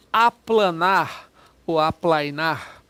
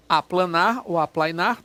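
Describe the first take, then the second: First: Each syllable drawn out slowly; slowly spelled out. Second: Said in the usual way. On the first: Shown as a demonstration. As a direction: say it slowly so the class hears the prefix. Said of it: "teacher shows word". (palavra dita bem devagar, sílaba por sílaba) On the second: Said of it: "teacher repeats word".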